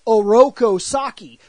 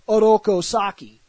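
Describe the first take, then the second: First: The R is a strong English R sound. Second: The R is a light L-like flap. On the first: This is how the name was said in America. "in America, he was very much" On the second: This treats it as a real Japanese name. "as if he really did have a Japanese name"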